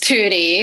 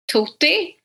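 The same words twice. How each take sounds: First: The name is said with an American English pronunciation. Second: The name is said with a Swedish pronunciation. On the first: "in American English" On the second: "In Swedish"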